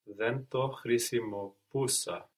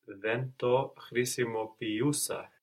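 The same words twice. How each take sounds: First: Χρησιμοποιούσα said as khrisimopoúsa, no ee before ou; dropped E sound. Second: Χρησιμοποιούσα said as khrisimopi-oúsa, ee before ou; E sound kept. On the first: Student's first attempt, χρησιμοποιούσα with the ee lost. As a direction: drop the ee from χρησιμοποιούσα, ending -poúsa. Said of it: "you shouldn't lose the E sound". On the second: Student corrected by teacher, χρησιμοποιούσα with the ee restored. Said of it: "that's still there". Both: Shown as a demonstration.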